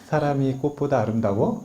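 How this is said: The voice rises at the end, like a question. It questions whether people are more beautiful.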